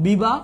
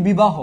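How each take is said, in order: First: বিবাহ split as 'biba... ho'; separated 'ho' ending. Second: Said in the usual way. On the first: Shown as a demonstration. Teacher revealing the answer to students, বিবাহ as 'biba... ho'. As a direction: pause inside বিবাহ, then a rounded final 'ho'. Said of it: "বিবাহ শব্দের উচ্চারণটা হবে কি জানো". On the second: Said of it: "এইটার উচ্চারণটা তোমরা অনেকেই করো তো".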